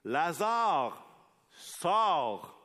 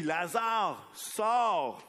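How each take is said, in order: First: Called out high and loud; a commanding shout into the grave; loud cry. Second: Even higher, louder cry, rising on sors; preacher acting Jesus shouting at the tomb; full shout. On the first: A narrator's reading. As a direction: call Lazarus out of the tomb. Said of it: "il cria d'une voix forte". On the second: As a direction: throw the command out with all your strength. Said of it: "tu vois Jésus qui crie".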